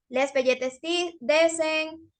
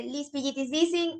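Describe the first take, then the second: First: "Les pelletes dicen", vowels turned to E; vowel substitution. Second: "lis pillitis dicen", vowels turned to I; vowel substitution. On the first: Teacher showing a vocal exercise, vowels swapped to E. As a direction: say "pelletes" with every vowel as E, drawn out. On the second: Teacher showing a vocal exercise, vowels swapped to I. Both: Shown as a demonstration. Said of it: "esto de los pollitos dicen se hace con todo".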